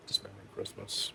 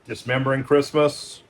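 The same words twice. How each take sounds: First: Title breathed out in a whisper; hushed creepy whisper of "Dismembering Christmas". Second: Said in the usual way. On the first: Real, not acted. Title repeated as an aside.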